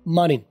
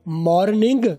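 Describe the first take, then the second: First: The word is clipped, with the final g dropped. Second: The word is said in full with its final g. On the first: The speaker calls it right. "ज्यादा बेहतर है short बोलो" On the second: The speaker calls it wrong. "वो भी ठीक है"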